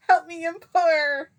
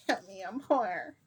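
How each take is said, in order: First: Very high, loud, slow plea; mock wail. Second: Mildly pleading, put-on cry for help; mock plea. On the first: Begging for help as a joke, loud mock wail. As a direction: wail it out in exaggerated desperation. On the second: Begging for help as a joke, mild mock plea. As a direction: beg in jest, holding back.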